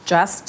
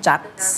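First: "just" with a clean final "st"; correct "just". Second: "just" jerked short with a muddled ending; jerky wrong "just". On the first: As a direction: say just, ending cleanly on s then t. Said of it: "ไม่ใช่". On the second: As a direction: say just as a jerky, Thai-style "chat". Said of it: "มันจะกระตุก มันจะกลายเป็น". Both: Shown as a demonstration.

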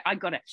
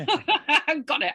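First: Said in the usual way. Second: Laughing it off, higher and louder. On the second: Real, not acted. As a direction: chuckle through the words. Laughing at her own throat.

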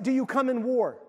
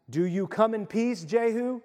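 First: Mock alternative question, war hit firmly; stress on war. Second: Said in the usual way. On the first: Shown as a demonstration. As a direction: ask "Do you come in war?" with a firm hit on war. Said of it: "Why wasn't it". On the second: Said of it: "isn't that always our question".

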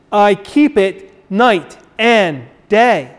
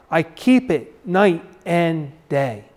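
First: Slow, weighty "I keep it night and day" with stress on "keep"; emphatic reading. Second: Said in the usual way. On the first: Shown as a demonstration. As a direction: lean on "keep", draw the line out slowly.

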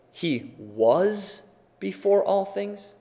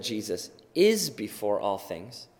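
First: "was" drawn out and set apart; stress on WAS. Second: "is" singled out firmly against the expected tense; stress on IS. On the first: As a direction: lean slowly on "was" as the expected word. Contrasts English grammar with Paul's wording. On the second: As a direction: land on "is" as the correcting word. Contrasts Paul's wording with English grammar. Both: Shown as a demonstration.

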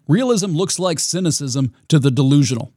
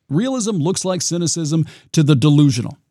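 No difference in how they are said.

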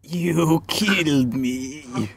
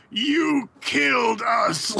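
First: Slow, drawn-out mock accusation; hammed-up dying blame, every word stretched; Captain America. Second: High, drawn-out accusing cry; mock-dramatic wail of blame, slow and high; Captain America. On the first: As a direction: drag it out at your usual pitch. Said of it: "Or, like". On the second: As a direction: stretch out a hammed-up accusation. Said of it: "Captain America, like, grabbed Tony and he was like".

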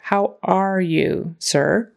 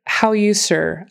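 First: How are you, sir said slowly with are sounded fully; slow and careful, keep are; every word clear. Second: How you, sir with are left out, said slowly; dropping the word are. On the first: Shown as a demonstration. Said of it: "make sure that you get all your words". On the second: Retold or imitated. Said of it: "I heard".

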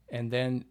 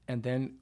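No difference in how they are said.

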